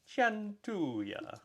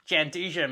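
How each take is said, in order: First: It is said with an Italian accent. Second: It is said with an Australian accent. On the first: "the Italian version" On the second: "Aussies pronounce it a bit differently"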